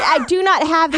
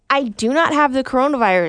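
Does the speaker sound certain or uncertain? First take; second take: uncertain; certain. First: The statement sounds hesitant and unsure. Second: The statement sounds firm and certain. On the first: The speaker calls it wrong. "Have some goddamn certainty in your tone" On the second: The speaker calls it right. "Because that's how serious I am"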